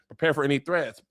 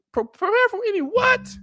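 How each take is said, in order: First: Said in the usual way. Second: Much higher, incredulous repeat of what; outraged disbelief. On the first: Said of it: "Damon's telling me". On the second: Real, not acted. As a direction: throw the order back in disbelief. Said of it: "First of all, y'all haven't delivered".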